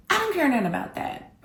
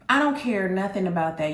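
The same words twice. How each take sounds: First: I don't care nothing about that, pitched much higher in mock outrage; a raised, indignant protest. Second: Said in the usual way. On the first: Angry at cancelled date.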